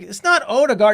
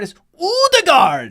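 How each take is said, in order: First: The name is said with an English pronunciation. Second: The name is said with a Norwegian pronunciation. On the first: The speaker calls it wrong. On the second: The speaker calls it right.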